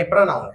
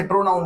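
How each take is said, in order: First: प्रोनाउन said with a short open first vowel, "pruh-NAUN"; corrected pronoun. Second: प्रोनाउन said with a full "oh" in the first syllable, "pro-naun"; mispronounced pronoun. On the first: Teacher correcting students' reading, प्रोनाउन pronounced "pranaun". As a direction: say प्रोनाउन as "pra-naun", without the round o. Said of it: "ये प्रोनाउन है". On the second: Teacher showing students the mistaken reading, प्रोनाउन with a clear "pro". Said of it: "इसे प्रोनाउन नहीं बोलते हैं". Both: Shown as a demonstration.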